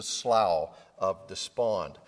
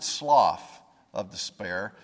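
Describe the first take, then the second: First: SLOUGH said "slau", rhyming with "how"; correct pronunciation. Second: SLOUGH said "slawf", ending in F; mistaken pronunciation. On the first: Preacher passing on the looked-up pronunciation, SLOUGH said as "slau". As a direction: slough with no F, like "cow". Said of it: "how it was supposed to be pronounced". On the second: Preacher admitting his old reading, SLOUGH said as "slawf". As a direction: slough rhymed with "cough". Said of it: "I always pronounced it". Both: Shown as a demonstration.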